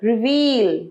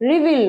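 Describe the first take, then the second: First: The second vowel is long. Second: The second vowel is short. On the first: The speaker calls it right. "একটু বড়" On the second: The speaker calls it wrong. "নয়"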